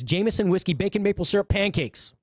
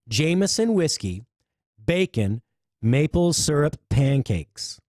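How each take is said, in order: First: It is said at normal conversational speed. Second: It is said slowly, with pauses between items.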